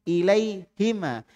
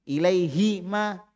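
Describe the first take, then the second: No difference in how they are said.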